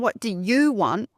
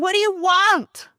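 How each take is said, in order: First: It sounds like a sincere, curious question. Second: It sounds like an impatient, demanding question.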